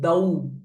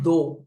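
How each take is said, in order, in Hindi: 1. स्वर au की तरह फिसलता है। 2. स्वर सादा, स्थिर o है। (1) "this is the au sound" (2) "It's not do"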